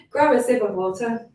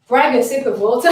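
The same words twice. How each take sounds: First: Said in the usual way. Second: "brag" said with b-r-a-g instead of grab, a quick slip; "brag" blurted fast for grab; tongue slip. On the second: Real, not acted.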